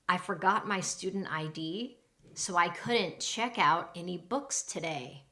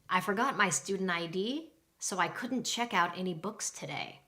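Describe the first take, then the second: First: The sentence is spoken at a normal speed. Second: The sentence is spoken very fast.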